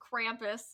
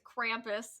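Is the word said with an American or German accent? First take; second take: American; American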